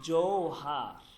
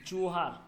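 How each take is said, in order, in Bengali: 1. প্রথম স্বরধ্বনিটি একটি গড়ানো ow ডিফথং। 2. প্রথম স্বরধ্বনিটি সাধারণ o ধ্বনি। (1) "এটাকে বলতে হবে আপনাকে জৌহার" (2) "এটা বললে আপনাকে ভুল হবে"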